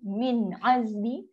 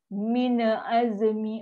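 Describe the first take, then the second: First: The n closes the syllable with no extra vowel. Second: An extra vowel is added after the n. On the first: The reader knows the letters in advance. The speaker calls it right. "kalau kita dah clear, min azmi, biasa je" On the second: The reader hesitates, unsure of the next letter. The speaker calls it wrong. "Sebab kita baca dragging"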